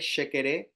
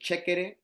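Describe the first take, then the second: First: It is said in the more common pronunciation. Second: It is said in the Spanish pronunciation. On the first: "Now we might know it as" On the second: "In our Spanish, we pronounce it"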